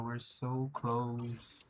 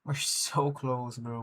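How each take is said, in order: First: We're so close, breathed slow and soft; hushed and drawn out. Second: Said in the usual way. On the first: Real, not acted. Streamer savoring the near win, hushed and slow. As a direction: let it hang, almost to yourself. Repeating near-goal to himself.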